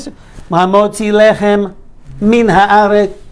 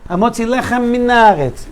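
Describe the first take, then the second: First: The m at the start of min is clear. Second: The m at the start of min is dropped. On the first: The speaker calls it right. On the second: The speaker calls it wrong. "You're missing mem"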